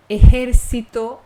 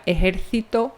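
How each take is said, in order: First: Ejército louder, s sound; Latin American ejército. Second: Ejército with a lisped th for the c; Castilian ejército. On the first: Teacher giving the American ejército. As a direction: stress ejército with s for the c. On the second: Teacher showing Iberian ejército. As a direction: say ejército the Spain way. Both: Shown as a demonstration. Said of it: "aqui na Península Ibérica".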